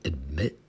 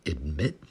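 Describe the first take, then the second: First: The final T sound is left off. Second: The same.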